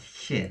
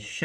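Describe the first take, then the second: First: "sh" softened with a y-like glide; soft sh. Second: "sh" as in shut, with no y-glide; hard sh. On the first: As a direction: say "sh" with the tongue raised toward the palate. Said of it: "so this one is sh". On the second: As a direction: say a plain, hard "sh". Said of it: "and this is sh". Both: Shown as a demonstration.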